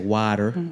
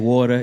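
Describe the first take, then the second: First: It is said in a Texas accent. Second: It is said in a New York accent.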